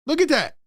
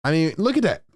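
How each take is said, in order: First: Much higher, stunned look at that; a sudden high cry of disbelief; amazed exclamation. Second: Said in the usual way. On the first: Real, not acted. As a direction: jump up in disbelief. Reacting to the coach on screen.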